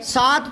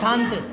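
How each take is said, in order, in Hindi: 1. स्वर सादा है, नाक से नहीं। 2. स्वर अनुनासिक है, नाक से। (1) "सात तो सीधे ही बोलते हैं" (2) "यूं बोलते हो क्या"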